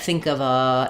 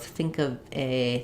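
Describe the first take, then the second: First: The final word is a long, held 'uh' sound. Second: The final word is said as 'ay'. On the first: "I would hold on uh, the schwa" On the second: "we might change to more of"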